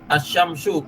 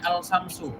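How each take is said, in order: First: The l merges into a doubled sh sound. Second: The l sound of the article is pronounced. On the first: The speaker calls it right. "sesuai kaidah alif lamnya" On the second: The speaker calls it wrong. "jangan membacanya al-samsu"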